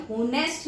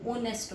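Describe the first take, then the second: First: होनेस्ट said with a sounded h, "ho-nest"; wrong pronunciation. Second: ऑनेस्ट said with a silent h, opening on the vowel "o-nest"; correct pronunciation. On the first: Teacher showing students the wrong way, sounded h. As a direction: show the mistake: होनेस्ट with a breathy h at the start. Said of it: "होनेस्ट नहीं होता". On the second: Teacher correcting students, silent h, vowel start. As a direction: give the right form: ऑनेस्ट, no h, starting on "o". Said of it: "ये क्या होता है". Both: Shown as a demonstration.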